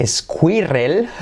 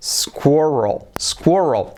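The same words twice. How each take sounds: First: Squirrel read as Spanish, es-kwee-REL; spelling pronunciation. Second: Squirrel said SKWUR-ul, no leading e; English pronunciation. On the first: Teacher shows how squirrel is written, spelling pronunciation. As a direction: slowly sound out squirrel letter by letter with trilled Spanish r. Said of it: "Escrito squirrel". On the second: Teacher reveals how squirrel really sounds, English pronunciation. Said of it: "pero se pronuncia". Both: Shown as a demonstration.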